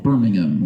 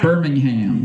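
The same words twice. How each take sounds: First: The last syllable is reduced, with no 'h' sound. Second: The last syllable is a full 'ham' with 'h'. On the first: This is how it is said in England. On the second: This is how it is said locally here.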